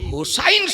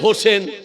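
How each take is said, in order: First: The second syllable has an 'ai' sound. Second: The second syllable has an 'e' sound. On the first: The speaker calls it right. "শব্দটা হোসেন নয়" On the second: The speaker calls it wrong. "আমাদের বাঙ্গালে করে দিয়েছে হোসেন"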